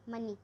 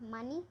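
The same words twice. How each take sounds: First: मनी with a short quick अ; short first vowel. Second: मानी with a long open आ; long first vowel. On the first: Teacher shows students the short way to say मनी. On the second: Teacher shows students the long way to say मानी. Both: Shown as a demonstration. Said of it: "दो तरीके से बोल सकते हैं".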